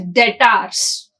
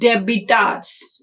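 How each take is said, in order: First: The b sound is left out of the word. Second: The b sound is pronounced in the word. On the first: The speaker calls it right. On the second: The speaker calls it wrong.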